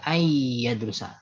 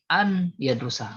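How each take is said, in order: First: The n merges into the following y sound. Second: The n is pronounced clearly before the y. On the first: It follows the Quran recitation rule. "nunnya masuk iya karena itu idgham" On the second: It is clearer for listeners. "udah jelas pastinya"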